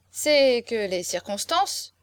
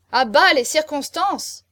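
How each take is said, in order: First: Slow, drawn-out tipsy declaiming; drunken persistence. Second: High, loud, drawn-out jeer; heckling shout. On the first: Drunk marquis tries another argument on hecklers, dogged persistence. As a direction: begin once more, slowly and stubbornly. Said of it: "l'imperturbable ténacité de l'ivresse". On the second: Guests cut off the marquis's next argument, heckling. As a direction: shout it down, stretching the words. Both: A narrator's reading.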